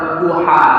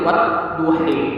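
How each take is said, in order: First: The word ends with an open a vowel. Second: The word ends with an e-like vowel. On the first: "jadi aturan kan wadduha" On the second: "tapi diimalahkan jadi wadduhe"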